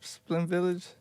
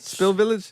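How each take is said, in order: First: The first word is said as 'Splin'. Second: The first word is said as 'Spill'. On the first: The speaker calls it wrong. "Is that how you say it?" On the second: The speaker calls it right. "There you go"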